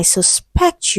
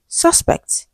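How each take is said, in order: First: Sus-PECT, the verb "suspect"; slow, weighted PECT in "suspect"; "suspect" with the second syllable stressed. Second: SUS-pect, the noun "suspect"; "suspect" with the first syllable stressed. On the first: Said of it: "as a noun and a verb". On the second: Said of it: "it means noun". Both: Shown as a demonstration.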